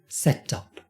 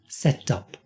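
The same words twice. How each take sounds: The two takes are said the same way.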